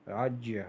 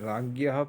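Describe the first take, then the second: First: The middle cluster gets a careful, traditional pronunciation. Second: The middle cluster gets a common, popular pronunciation. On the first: The speaker calls it right. "लेकिन शुद्ध उच्चारण इसका राज्य है" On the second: The speaker calls it wrong. "इसे राज्ञः पढ़ते हैं कुछ लोग"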